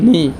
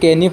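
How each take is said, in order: First: The word begins with an n sound. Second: The word begins with a sounded k. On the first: The speaker calls it right. "এইটো সঠিক শুদ্ধ উচ্চাৰণ হ'ল নি" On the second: The speaker calls it wrong. "বহুতেই এইটো কেনি পঢ়ে, এইটো কেনি পঢ়িব নালাগে"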